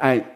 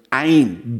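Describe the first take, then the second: First: The word is said weakly, without stress. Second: The word is said with strong stress. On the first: It only means a god, an indefinite article. The speaker calls it wrong. "so unbetont" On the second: It means one single god. The speaker calls it right. "den Griechischen betont"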